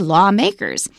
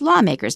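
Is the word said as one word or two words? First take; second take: two words; one word. First: It is said as two separate words. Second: It is said as one single word. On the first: The speaker calls it wrong. "Don't say" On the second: The speaker calls it right. "it is one word"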